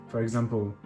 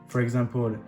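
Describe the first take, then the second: The two takes are said the same way.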